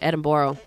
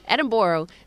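First: It is said with an American pronunciation. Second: It is said with a Scottish pronunciation. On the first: "That's the way the Americans pronounce it" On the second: "you have to call it Edinburgh"

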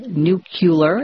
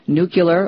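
First: The word is said imitating another speaker's pronunciation. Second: The word is said in the usual standard way.

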